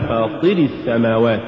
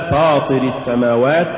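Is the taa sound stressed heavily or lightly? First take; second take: heavily; lightly. First: The taa sound carries excessive, heavy stress. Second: The taa sound carries only light, normal stress. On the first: The speaker calls it wrong. "ولا تقل ... زيادة نبرة الطاء عن الحد المطلوب" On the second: The speaker calls it right. "الصواب"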